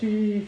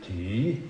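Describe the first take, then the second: First: The syllable is spoken at a higher pitch. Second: The syllable is spoken at a low pitch. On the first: The speaker calls it wrong. "Nicht Ti, falsch" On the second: The speaker calls it right. "Müssen wir aber tief sprechen"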